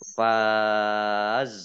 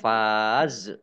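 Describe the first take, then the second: First: The final z ends still, without any echo. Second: The final z has an added bouncing echo. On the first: The speaker calls it right. "tapi dibaca faqad faz" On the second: The speaker calls it wrong. "jangan dibaca faz"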